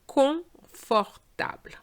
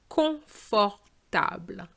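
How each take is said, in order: No difference in how they are said.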